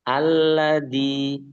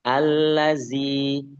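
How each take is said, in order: First: The middle consonant is a hard 'd' sound. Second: The middle consonant is a buzzing 'z' sound. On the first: "Atau ke dal" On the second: "Jangan sampai ke arah zai"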